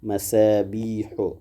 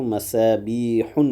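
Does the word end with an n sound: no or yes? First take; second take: no; yes. First: The word ends on a vowel without n. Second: The word ends with an added n sound. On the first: The speaker calls it right. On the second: The speaker calls it wrong.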